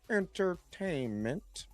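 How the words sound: It is said in a Doctor Evil impression.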